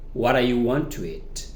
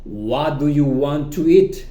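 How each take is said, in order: First: "What do you" shrunk to "What are you"; quicker, casual "whadda-ya want to eat"; reduced pronunciation. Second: "What do you" slow and distinct; slow teacher's model of "What do you want to eat"; full careful form. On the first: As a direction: blur "What are you" into one linked word. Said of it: "en reducción decimos". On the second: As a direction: pronounce "do you" in full, deliberately. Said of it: "repasamos de nuevo". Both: Shown as a demonstration.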